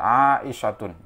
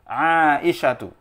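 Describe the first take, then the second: First: The name ends in a u vowel plus n. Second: The name ends in a short u vowel. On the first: The speaker calls it wrong. "Maka tidak boleh dibaca Aisyatun" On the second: The speaker calls it right. "maka dia termasuk isim ghairu munsharif"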